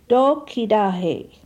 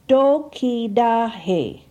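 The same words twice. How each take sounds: First: It is said at normal conversational speed. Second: It is said slowly, each syllable distinct. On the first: "second for normal pronunciation" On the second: "First for enunciation"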